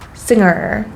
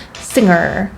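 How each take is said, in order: Both takes have the same delivery.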